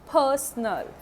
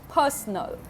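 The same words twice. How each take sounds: No difference in how they are said.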